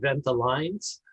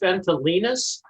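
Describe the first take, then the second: First: The name is read out as it is spelled. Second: The name is said in its original, technical form. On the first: This is what most people call it. "just like it's spelled" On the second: This is the technically correct name. "technically it's"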